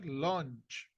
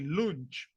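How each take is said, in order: First: The vowel is a short 'uh' sound. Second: The vowel is a long 'oo' sound. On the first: The speaker calls it right. "You say lunch" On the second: The speaker calls it wrong. "The second one is not the sound like ooh, because I don't say lunch"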